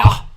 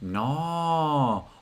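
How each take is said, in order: First: It sounds brisk, urging to get started. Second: It sounds like a sudden realization. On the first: It is time to get going. "or it can be like a um okay, let's get going, like" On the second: Something has just dawned on the speaker. "it can be like a realization like no"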